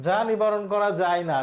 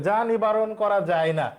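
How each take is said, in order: Both takes have the same delivery.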